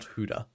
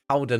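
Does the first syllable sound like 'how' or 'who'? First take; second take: who; how. First: The first syllable rhymes with 'who'. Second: The first syllable rhymes with 'how'. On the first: The speaker calls it wrong. "not Huda" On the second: The speaker calls it right. "Howdah, not Huda"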